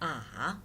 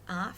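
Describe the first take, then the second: First: The pitch dips down, then rises. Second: The pitch rises from low to high. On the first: "It goes down and then up" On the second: "The tone is rising"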